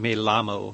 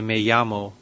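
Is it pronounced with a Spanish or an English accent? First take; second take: English; Spanish. First: It is said with an English pronunciation. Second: It is said with a Spanish pronunciation.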